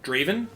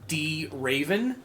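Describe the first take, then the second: First: The D is blended into one smooth word. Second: The D is said as a separate letter. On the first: The speaker calls it right. "because it like just all flows together" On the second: The speaker calls it wrong. "they say it D Raven instead of just Raven with a D in front of it"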